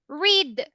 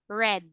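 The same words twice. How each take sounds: First: The vowel differs from the vowel in 'red'. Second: The vowel sounds like the vowel in 'red'. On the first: It refers to the present. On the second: It refers to the past.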